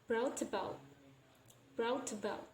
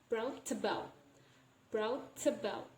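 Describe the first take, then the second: The two takes are said the same way.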